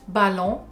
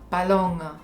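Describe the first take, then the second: First: It is said with a French accent. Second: It is said with a German accent.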